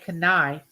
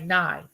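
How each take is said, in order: First: The K sound is pronounced at the start. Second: The K sound is left out at the start. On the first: The speaker calls it wrong. "you don't say knife" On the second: The speaker calls it right. "you just say knife"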